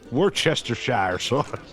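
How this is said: It is pronounced in an American way. The speaker says it this way deliberately, against habit.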